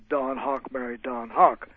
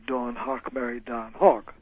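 First: Don and Dawn have the same vowel. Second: Don and Dawn have different vowels. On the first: "the words cot and caught are pronounced the same way" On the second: "whereas the people in New York might say"

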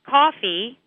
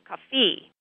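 First: The stress falls on the usual syllable. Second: The stress falls on a different syllable. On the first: The speaker calls it right. "instead of saying coffee" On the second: The speaker calls it wrong. "students stress the wrong syllable"

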